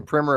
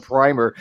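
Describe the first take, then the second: First: "primer" said as "primmer"; short i in "primer", rhyming with swimmer; short-i pronunciation. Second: "primer" said as "pry-mer"; long i in "primer", rhyming with timer; long-i pronunciation. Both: Shown as a demonstration. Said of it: "the difference between primer and primer".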